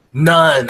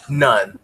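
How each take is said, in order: First: None punched louder with a falling tune; emphatic NONE. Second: Said in the usual way. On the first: Real, not acted. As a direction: hit None hard and final.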